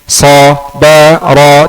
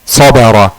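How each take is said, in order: First: Each syllable is said slowly and separately. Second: The syllables run together in one word. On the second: "di akhirnya harus sabara"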